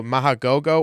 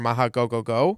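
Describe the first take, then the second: First: "Mahagogo" ending in two "go"s; two-go pronunciation. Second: "Mahagogogo" ending in three "go"s; three-go pronunciation. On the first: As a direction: say "Mahagogo" with just two goes at the end. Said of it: "heard it pronounced two goes". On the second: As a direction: say "Mahagogogo" with a third go added. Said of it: "it had three goes". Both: Shown as a demonstration.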